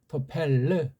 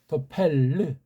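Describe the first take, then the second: No difference in how they are said.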